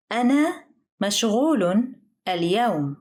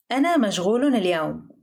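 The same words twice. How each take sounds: First: "أنا مشغول اليوم" with a pause after each word; careful, slowed teaching take of "أنا مشغول اليوم". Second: Said in the usual way. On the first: Shown as a demonstration. Example phrase, slow teaching take.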